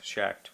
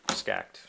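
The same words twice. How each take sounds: First: Schacht with "sh" at the start, like "shakt"; sh pronunciation. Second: Schacht with "sk" at the start, like "skakt"; sk pronunciation. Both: Shown as a demonstration. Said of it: "however you say his name".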